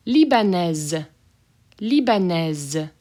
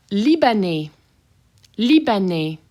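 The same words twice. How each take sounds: First: Libanaise with a buzzed Z ending. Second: Libanais with silent final S; masculine form. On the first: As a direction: sound the Z at the end of Libanaise. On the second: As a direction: end Libanais on the vowel. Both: Shown as a demonstration. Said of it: "That S as a Z".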